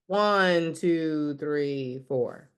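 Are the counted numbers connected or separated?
connected. The numbers flow together without gaps. The speaker calls it right.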